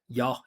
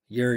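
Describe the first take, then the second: First: The final R sound is dropped. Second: The final R sound is clearly pronounced. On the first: "she's not pronouncing R sounds" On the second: "Resonance, vibration"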